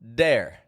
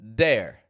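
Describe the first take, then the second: First: The word begins with a hard d sound. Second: The same.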